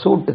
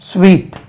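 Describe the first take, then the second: First: The word sounds like 'soot'. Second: The word sounds like 'sweet'. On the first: The speaker calls it wrong. "சூட் சொல்லக்கூடாது" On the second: The speaker calls it right. "முட்டாய்க்கு எப்படி உச்சரிக்கிறீங்களோ அதே உச்சரிப்பு"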